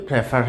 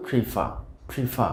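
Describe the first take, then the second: First: প্রেফার with "pre" as in press; common mispronunciation. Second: প্রিফার as "pri-FAA", silent final r; correct pronunciation. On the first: Teacher shows the usual mistake, mispronounced. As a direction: open the first vowel of প্রেফার, "preh-far". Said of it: "আমরা উচ্চারণ সাধারণত করে থাকি". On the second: Teacher models the word for learners, correctly pronounced. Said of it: "সঠিক উচ্চারণটা হবে". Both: Shown as a demonstration.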